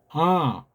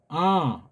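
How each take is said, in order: First: The sound is lifted and resonates in the head. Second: The sound is lifted and resonates in the head.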